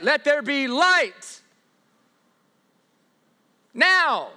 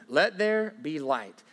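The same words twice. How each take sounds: First: "Let there be light" pushed higher and louder, slowly, as if struggling; mock straining command. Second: Said in the usual way. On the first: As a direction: ham up a God who has to force it. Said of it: "He doesn't need to be like". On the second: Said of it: "doesn't need to be like".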